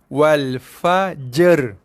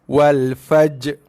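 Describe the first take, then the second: First: The j and r are blended into one sound. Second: The final r sound is left out entirely. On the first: "dicantumkan bunyi jim dan ra tu" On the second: "Tak ada bunyi ra langsung"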